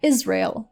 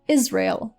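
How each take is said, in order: First: It is said with an English pronunciation. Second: The same.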